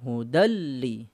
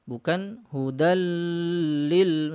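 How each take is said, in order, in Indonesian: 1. Suku kata terakhir pendek, satu ketukan. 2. Suku kata terakhir dipanjangkan terlalu lama. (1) "ini satu ayunan" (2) "tidak boleh, ya, terlalu lama"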